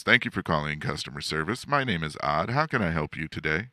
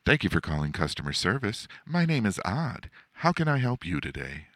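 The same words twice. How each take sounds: First: Other customer service voice. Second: Higher-pitched, brisk customer service greeting. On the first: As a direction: rattle off the call greeting, understated. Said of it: "Sometimes my customer service voice is". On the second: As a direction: put on a perky phone-agent voice, pitched up. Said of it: "that's not necessarily always my customer service voice". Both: Shown as a demonstration.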